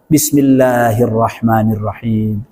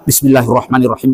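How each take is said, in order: First: It is recited slowly and calmly. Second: It is recited fast without pausing for breath. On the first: The speaker calls it right. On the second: The speaker calls it wrong. "sampai enggak enggak enggak bernafas"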